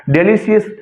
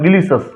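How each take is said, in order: First: "डिलीशियस" ending in "see-es"; "डिलीशियस" with a full vowel before the last s; common mispronunciation. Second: "डिलीशियस" ending in schwa, "di-li-sus"; falling "डिलीशियस", last vowel a short uh; correct pronunciation. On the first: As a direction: say डिलीशियस the usual learner's way, "de-li-si-es". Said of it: "हम पढ़ते हैं". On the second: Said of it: "असली में उसको क्या पढ़ा जाता है". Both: Shown as a demonstration.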